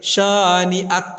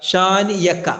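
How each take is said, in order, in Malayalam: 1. അവസാന അക്ഷരങ്ങൾക്ക് മുമ്പ് glottal stop ഉണ്ട്. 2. അവസാന അക്ഷരങ്ങൾക്ക് മുമ്പ് y ശബ്ദമുണ്ട്. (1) "ഹംസയാണ്" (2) "യാ അല്ല"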